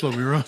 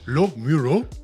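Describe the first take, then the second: First: The syllables run together smoothly as one word. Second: Each syllable is said separately and distinctly. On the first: The speaker calls it right. "no, it's just" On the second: The speaker calls it wrong. "separating it"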